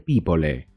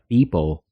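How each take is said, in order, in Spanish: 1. La E final se pronuncia. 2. La E final es muda. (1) "en lugar de people" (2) "se pronuncia people"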